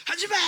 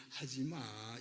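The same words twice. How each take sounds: First: Put-on sudden loud high yell at a child; furious parent yelling stop; harsh shout. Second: Low quiet calm correction; a tender parent saying don't; gentle soft no. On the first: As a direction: bark the order out, scolding. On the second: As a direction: tell the child softly, no anger. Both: Shown as a demonstration. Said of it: "이게 더 좋아".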